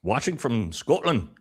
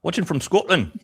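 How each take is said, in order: First: Slow, higher-pitched Scottish accent. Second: Much higher, louder Scottish accent. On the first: Host reads out a viewer's location, in a Scottish accent. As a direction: try a drawn-out Scottish accent. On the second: Host repeats a viewer's location, in a hammed-up Scottish accent. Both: Shown as a demonstration. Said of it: "That was Scottish, bro".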